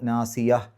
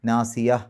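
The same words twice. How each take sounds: No difference in how they are said.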